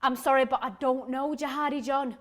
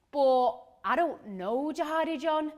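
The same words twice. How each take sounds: First: Polite, even-voiced apology; measured, civil correction. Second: Baffled reply. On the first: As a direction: decline courteously and evenly. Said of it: "I say politely". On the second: Acted.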